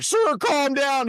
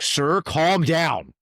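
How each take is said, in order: First: High-pitched, drawn-out mock shout; escalated order. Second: Raised pitch, drawn-out firm order; flight attendant's order. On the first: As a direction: imitate a frantic attendant shouting. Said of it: "And then he's like". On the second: Retold or imitated. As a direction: imitate an attendant slowly insisting. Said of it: "the flight attendant is like".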